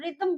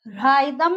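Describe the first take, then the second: First: The first vowel sounds like 'ih'. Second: The first vowel sounds like 'eye'. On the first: The speaker calls it right. "वो रिदम बोलते हैं उसको" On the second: The speaker calls it wrong. "राइदम नहीं होता है"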